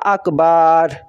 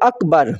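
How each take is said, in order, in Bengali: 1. শেষের r-এর আগের স্বরধ্বনিটি টেনে লম্বা করা হয়। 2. শেষের r-এর আগের স্বরধ্বনিটি ছোট।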